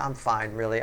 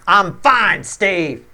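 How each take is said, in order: First: It sounds relaxed and genuinely fine. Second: It sounds tense and annoyed.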